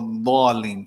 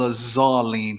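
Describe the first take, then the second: First: The key consonant is a heavy d sound. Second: The key consonant is a z sound. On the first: The speaker calls it right. "You say" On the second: The speaker calls it wrong. "you don't say"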